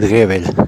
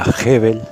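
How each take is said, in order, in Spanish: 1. El apellido se pronuncia con una pronunciación del español rioplatense. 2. El apellido se pronuncia con una pronunciación alemana. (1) "aquí en Uruguay, Argentina, le decimos Gebel por costumbre" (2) "El apellido en realidad se pronunciaría Gebel"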